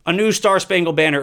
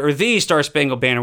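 First: Said in the usual way. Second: "the" stressed and said as "thee"; emphatic "thee" for "the", marking the one and only. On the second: Real, not acted. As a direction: correct yourself by leaning on "the", pronounced "thee". Corrects "a new" to "the.

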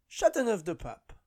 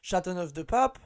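First: Chateauneuf-du-Pape starting high, falling away; French metro announcer. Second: Chateauneuf-du-Pape rising at the end; French metro announcer. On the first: Comedian imitating Paris metro stop announcements, falling announcer. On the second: Comedian imitating Paris metro stop announcements, rising announcer. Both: Acted. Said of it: "like the ones in France".

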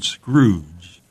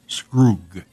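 First: Said in the usual way. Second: Scroog ending in a hard g; Scroog, drawn out, closing on a hard g; hard G pronunciation. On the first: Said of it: "was to be pronounced Scroog". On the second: Shown as a demonstration. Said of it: "was to be pronounced".

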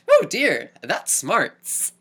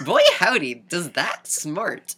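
First: Put-on much higher, louder, old-fashioned 'oh dear'; hammed-up quaint wince of pain; prim storybook gentleman. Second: Much higher, loud, then stretched slowly; hammed-up folksy wince, dragged out; quaint gentleman, slowed. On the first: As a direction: play a dainty hero after getting bonked. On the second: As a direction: drawl out the old-timey exclamation. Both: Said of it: "His reaction in ... romanticized goggle visions".

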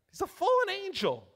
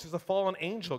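First: He's a fallen angel pitched much higher and slowed, fallen stressed; emphatic repeat. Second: Said in the usual way. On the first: Shown as a demonstration. Preacher repeating to the church for emphasis, fallen stressed high and slow.

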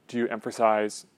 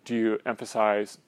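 The two takes are said the same way.

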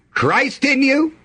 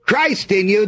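First: "Christ in you" lifted higher, stress on you with a rise; preacher's emphatic "Christ in you", rising on you; emphatic repeat. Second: Said in the usual way. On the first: Shown as a demonstration. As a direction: lift "Christ in you" up high and land on you. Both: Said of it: "That's a pretty good spiritual emphasis".

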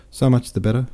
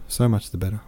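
First: Lifted, louder so much the better, rising at the end; smiling captain, bright first take. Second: So much the better repeated more gently, still rising; smiling captain, softer echo. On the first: Captain cheers Pierre, the louder rising first take. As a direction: beam it out, rising. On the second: Captain repeats himself to Pierre, a softer rising echo. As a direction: let the echo settle back down. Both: Acted. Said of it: "he added, smiling".

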